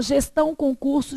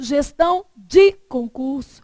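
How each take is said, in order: First: Said in the usual way. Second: Gestão de concurso, slow with "de" punched; slow down and hit DE in gestão de concurso; stress on DE. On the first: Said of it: "gestão concurso, é uma banca". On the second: Shown as a demonstration. Teacher contrasting two exam boards, "de" in gestão de concurso stressed. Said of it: "gestão de concurso é outra".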